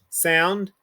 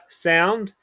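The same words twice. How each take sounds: The two takes are said the same way.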